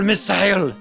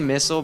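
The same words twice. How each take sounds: First: It is yelled with a Japanese-style pronunciation. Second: It is said with a plain English pronunciation. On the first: It imitates a character from a Japanese cartoon. "he would yell missile" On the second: This is the speaker's usual way of saying it. "I typically say missile"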